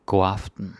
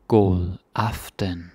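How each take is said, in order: First: Said in the usual way. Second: God aften slowly, god stressed, falling end; slow demo. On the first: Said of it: "normal demo". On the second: Shown as a demonstration. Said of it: "slow demo".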